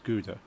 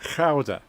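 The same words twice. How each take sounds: First: It starts with a hard English G sound. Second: It starts with a throaty, growled G sound. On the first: "the English will pronounce it as Gouda" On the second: "Probably needs a little bit more um, growl on the G"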